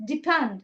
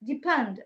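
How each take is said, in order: First: The two words run together like one word. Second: The two words run together like one word.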